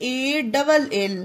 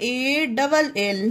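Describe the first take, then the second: Both takes have the same delivery.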